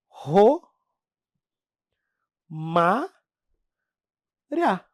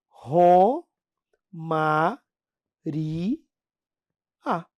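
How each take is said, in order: First: The ending 'ria' is said as one syllable. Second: The ending is split into 'ri' and 'a'. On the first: The speaker calls it wrong. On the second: The speaker calls it right.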